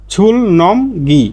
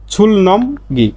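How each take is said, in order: Both takes have the same delivery.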